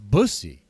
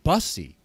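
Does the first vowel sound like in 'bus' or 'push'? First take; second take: push; bus. First: The first vowel sounds like in 'push'. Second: The first vowel sounds like in 'bus'. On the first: The speaker calls it right. "It rhymes with pussy" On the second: The speaker calls it wrong. "Like it's a bus"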